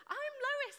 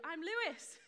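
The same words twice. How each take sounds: First: "Lois" as LOH-iss, high and emphatic; insistent high correction to "Lois", LOH-iss; corrected name. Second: "Lewis" said as LOO-iss in a breezy introduction; cheerful high greeting, slipping into "Lewis" with LOO; mispronounced own name. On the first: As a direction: fix the slip, stressing "Lois" with an OH. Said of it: "I'm not Lewis". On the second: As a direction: introduce yourself with "Lewis", an OO in the first syllable. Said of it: "introduced myself, and I went". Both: Retold or imitated.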